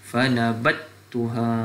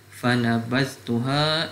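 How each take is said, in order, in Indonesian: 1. Bunyi z menyatu ke bunyi t yang mengikutinya. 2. Bunyi z terdengar sebelum t.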